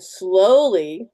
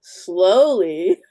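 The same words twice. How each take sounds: First: Very slow, stretched "slowly"; drawn-out slowly. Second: "slowly" said louder with a rise; emphatic slowly. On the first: Showing how to fill the cartridge, drawn out slowly. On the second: Repeating the tip for emphasis, emphatic slowly. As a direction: repeat "slowly" with more weight. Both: Shown as a demonstration. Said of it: "let me mention that again".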